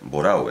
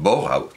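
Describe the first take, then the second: First: The surname is said in the usual Spanish way. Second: The surname is said like a German name. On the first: The speaker calls it right. "se pronuncia Borau" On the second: The speaker calls it wrong. "como si fuera un apellido alemán"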